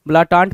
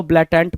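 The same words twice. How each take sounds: First: ब्लाटांट ending in a long "taant"; variant pronunciation. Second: ब्लाटेंट ending in "tent", not "taant"; variant pronunciation. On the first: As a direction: say ब्लाटांट with open "aa" in both syllables. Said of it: "कुछ लोग इसको ब्लाटांट भी पढ़ेंगे". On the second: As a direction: say ब्लाटेंट with an "e" in the last syllable. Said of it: "कुछ लोग ब्लाटेंट भी पढ़ेंगे". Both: Shown as a demonstration.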